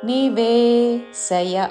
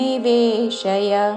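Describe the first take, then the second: First: The sh sound is not palatal. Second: The sh sound is palatal. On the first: The speaker calls it wrong. "అనకూడదు" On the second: The speaker calls it right. "తాళవ్యషతో శయ"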